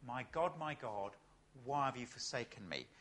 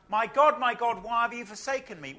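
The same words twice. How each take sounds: First: Soft, low, broken cry to God; hushed cry. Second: Loud anguished cry to God. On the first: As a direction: let the cry sink to almost nothing. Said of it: "he cries out". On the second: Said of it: "He cries out". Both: Acted.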